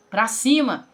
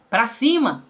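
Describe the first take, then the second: No difference in how they are said.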